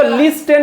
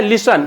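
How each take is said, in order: First: लिस्टन with the t sounded, "lis-ten"; wrong "listen". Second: लिसन with a silent t, "lis-un"; लिसन in two syllables, only an s in the middle; correct "listen". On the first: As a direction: pronounce the t in लिस्टन. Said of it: "इसको लिस्टन नहीं पढ़ना". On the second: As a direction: leave the t out of लिसन. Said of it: "लिस्टन नहीं पढ़ना". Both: Shown as a demonstration.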